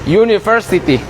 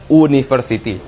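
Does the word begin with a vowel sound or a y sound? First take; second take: y sound; vowel sound. First: It begins with a y sound. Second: It begins with a plain vowel sound. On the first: The speaker knows the pronunciation. The speaker calls it right. "U-nya diganti menjadi y" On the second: The speaker does not know the pronunciation. The speaker calls it wrong. "kalau orang tidak tahu pronunciation, dia pasti menyebutnya university"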